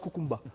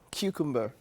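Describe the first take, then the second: First: The word is said in a plain, everyday way. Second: The word is said in a refined, posh way. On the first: The speaker calls it wrong. "I used to pronounce it" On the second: The speaker calls it right. "you have to add some refined"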